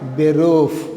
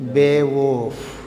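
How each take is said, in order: First: The r is said plainly, as spelled. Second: The r is said as a native German r. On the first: "మామూలుగా మనం pronunciation spell ప్రకారం ఏం చేస్తాం" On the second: "native Germans వచ్చేసి"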